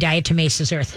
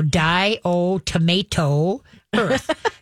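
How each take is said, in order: First: The first word is said like 'diatomaceous'. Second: The first word is said like 'die-o-tomato'. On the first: The speaker calls it right. "I finally could put it together going diatomaceous earth" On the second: The speaker calls it wrong. "before I finally could put it together"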